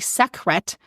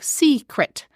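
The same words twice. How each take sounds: First: The word is split after the k sound. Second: The word is split right after the first vowel. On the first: The speaker calls it wrong. "secret's not a word" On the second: The speaker calls it right. "if I split it in a different spot"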